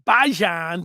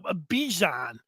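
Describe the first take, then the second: First: It does not sound like 'Dijon'. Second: It sounds close to 'Dijon'. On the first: The speaker calls it wrong. "I used to think it was Bijan" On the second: The speaker calls it right. "close to Dijon the mustard"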